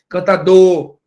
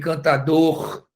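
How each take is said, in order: First: The final R sound is left out. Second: The final R sound is clearly pronounced. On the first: The speaker calls it right. "como se não tivesse o, o, o fonema do R" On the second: The speaker calls it wrong. "Não é cantador nem cantador que se fala"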